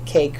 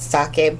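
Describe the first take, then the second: First: The surname has a simplified English-style pronunciation. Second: The surname has its original Albanian pronunciation. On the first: This is an easier everyday form. "easier to be" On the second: This is the name's true form. "actually it's"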